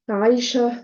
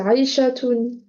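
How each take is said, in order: First: The name ends with the -tun ending dropped. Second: The name ends with a pronounced -tun ending. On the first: This is how the name is actually said. "on prononce pas le ta marbuta à la fin" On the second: This is the full written form of the name. "en vrai, c'est Aïchatoun"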